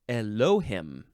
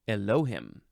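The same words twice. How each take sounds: The two takes are said the same way.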